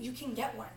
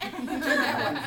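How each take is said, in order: First: Said in the usual way. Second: Laughing. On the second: Real, not acted. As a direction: repeat the line through real laughter, louder. Repeats line through laughter.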